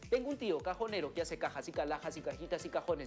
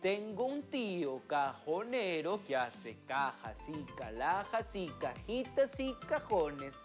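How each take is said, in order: First: The words are spoken very quickly. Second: The words are spoken slowly and carefully. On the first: "hay que decirlo súper, mega, archi, recontra, rápido" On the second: "lo digo despacito"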